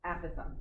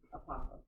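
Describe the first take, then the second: First: The first syllable sounds like 'app'. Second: The first syllable is a weak 'uh', like 'opossum'. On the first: The speaker calls it right. "think like you have apps on your phone" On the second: The speaker calls it wrong. "not not apothem. Shouldn't sound like an animal"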